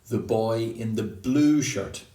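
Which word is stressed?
blue. The word blue carries the main stress. It is not a shirt of another color. "like not the boy in the green shirt"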